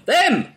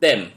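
First: Shouted title. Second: Said in the usual way. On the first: Shown as a demonstration. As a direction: call out Them! like a poster. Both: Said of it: "You have to shout it".

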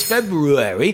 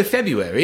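First: February as Feb-ROO-ary; R-sounded pronunciation. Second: February said as Feb-yoo-ary; casual February, no r after the b; R-less pronunciation. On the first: Shown as a demonstration. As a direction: sound both r's in February. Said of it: "the fact that it's February". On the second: Retold or imitated. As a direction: skip the first r in February. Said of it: "people go February and completely ignore".

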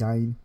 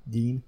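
First: Gein said as "gine", long eye vowel; GEIN rhymed with Stein. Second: Gein said as "geen"; GEIN with ee vowel. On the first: Host trying out the killer's surname, Gein said like Stein. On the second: Host testing the killer's surname, Gein with a long ee. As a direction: say Gein to rhyme with keen. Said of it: "I always thought it was Gain". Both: Shown as a demonstration.

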